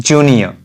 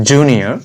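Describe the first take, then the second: Both takes have the same delivery.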